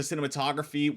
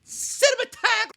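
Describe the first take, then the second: First: Said in the usual way. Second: Very high, drawn-out squawk of "cinematog-"; goofy word-stumble. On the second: Real, not acted. Reviewer tripping over cinematography, goofy high squawk. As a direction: blurt "cinematog-" way up high, stretched.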